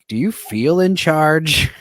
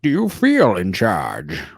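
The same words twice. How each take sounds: First: It is said in a normal speaking voice. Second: It is said in a put-on character voice.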